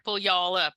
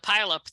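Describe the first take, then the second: First: The word sounds like 'pull y'all up'. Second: The word sounds like 'pile up'. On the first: The speaker calls it right. "I always just say pronounce it "pull y'all up,"" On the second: The speaker calls it wrong. "the pile up that they usually say"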